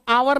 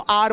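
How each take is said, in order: First: It is said as two syllables without h. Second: It is said as one syllable without h. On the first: The speaker calls it wrong. "इसको आवर नहीं बोलते" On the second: The speaker calls it right. "इसको आर बोलते हैं"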